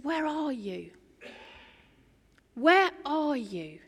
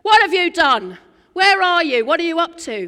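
First: Soft, tender, slow call; softly longing to find them; quiet, loving voice of God calling; gentle calling. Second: Mock accusing yell, much louder; loud, accusing version God does not use; accusing shout. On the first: Acted. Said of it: "He says". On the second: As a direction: bellow the questions like a cross parent. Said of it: "That's not what God says".

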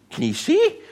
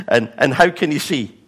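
First: "see" pulled up high in disbelief, ending on a rise; incredulous question. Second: Said in the usual way. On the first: Retold or imitated. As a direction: ask "Can he see?" in mock disbelief. Pharisees questioning the parents.

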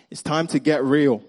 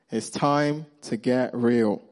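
First: Said in the usual way. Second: Drawn out, measured delivery; slow emphatic repeat. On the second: Real, not acted. Preacher repeating the point to the congregation, slowly and deliberately. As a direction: stretch each word to land the point.

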